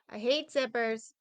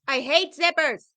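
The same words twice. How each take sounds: First: It is said flatly, without strong feeling. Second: It is said emphatically, with strong feeling.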